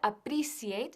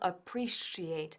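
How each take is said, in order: First: The middle consonant sounds like a Spanish 'c'. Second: The middle consonant sounds like 'sh'. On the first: The speaker calls it wrong. "que no se pronuncia appreciate" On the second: The speaker calls it right. "sino appreciate. Shh, shh, shh"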